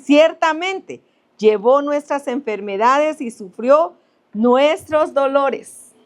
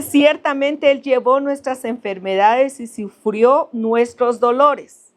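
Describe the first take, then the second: First: Slow, raised solemn reading of the verse; scripture reading. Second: Slow, raised solemn reading, stretching the last word; scripture reading. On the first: Preacher reading Isaiah to the congregation, slow and solemn. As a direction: lift each word of the verse slowly. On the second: Preacher repeating the verse to the congregation, slow and solemn. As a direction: draw out dolores at the end. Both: Acted.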